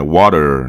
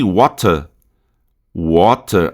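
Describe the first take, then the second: First: "water" low, American, with tapped T and R; American English accent. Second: "water" British, crisp T and no final R; British English accent. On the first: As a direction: curl the final R of American "water". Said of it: "o R do americano". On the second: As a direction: end British "water" on a weak vowel. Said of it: "Em inglês britânico". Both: Shown as a demonstration.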